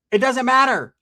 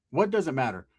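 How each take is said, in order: First: High, loud dismissal; imitating a hostile woman on the phone; dismissive retort. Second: Said in the usual way. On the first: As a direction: shut the caller down. Woman snaps back at caller.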